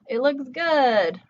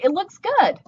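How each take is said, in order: First: It is said in a sarcastic, doubtful tone. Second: It is said in a sincere, approving tone. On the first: The haircut does not look good. "we're trying to communicate it doesn't look good" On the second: The haircut really looks good. "this nice haircut this your friend got"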